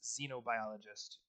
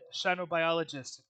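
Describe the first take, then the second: First: The word begins with a z sound. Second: The word begins with a sh sound. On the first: "in an American pronunciation" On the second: "he said shinobiologist"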